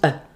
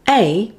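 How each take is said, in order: First: The word is said in its weak form. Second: The word is said in its full form.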